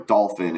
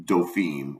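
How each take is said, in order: First: "Dolphin" said like the sea animal; mispronounced Dauphin. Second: "Dauphine" said the French way, doh-FEEN; correct French title. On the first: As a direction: say "Dolphin" as an English word, stress up front. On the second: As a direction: say "Dauphine" with a long ee ending. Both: Shown as a demonstration. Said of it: "Huck's mispronunciation of the word Dauphine".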